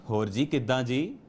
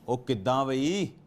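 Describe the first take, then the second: First: It is said warmly and affectionately. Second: It is said in a confrontational, aggressive tone.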